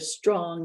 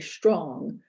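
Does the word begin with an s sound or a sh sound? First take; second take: s; sh. First: The word begins with a plain s sound. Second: The word begins with a sh-like sound. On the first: "instead of strong" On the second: "they produce something more like an esh"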